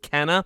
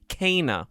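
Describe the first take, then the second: First: The first vowel is a short 'eh' sound. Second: The first vowel is a long 'ay' sound. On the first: "not not just Kenna" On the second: "they actually pronounce it more like Kana, where it's like K A Y"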